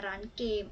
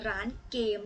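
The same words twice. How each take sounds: The two takes are said the same way.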